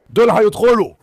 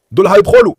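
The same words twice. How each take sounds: First: Said in the usual way. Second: High, loud burst of alarm; excited alarm. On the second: Real, not acted. Owner watching his dogs, startled and loud. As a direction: blurt it out as the dogs move in.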